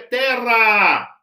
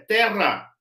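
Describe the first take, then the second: First: The final vowel is drawn out long. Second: The final vowel is short. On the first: It is the ablative form. "Eles prolongavam um pouco mais para você saber que era um ablativo" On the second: It is the nominative or vocative form. "nominativo e vocativo são breves a terminação"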